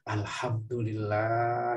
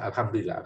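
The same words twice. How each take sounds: First: It is said with deep, heartfelt feeling. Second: It is said flatly, like a routine habit. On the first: The heart truly joins in the gratitude. "Beda nggak tuh? ... Ada hati yang ikut tuh" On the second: It is said out of habit. "kalau misalnya kita sudah biasa"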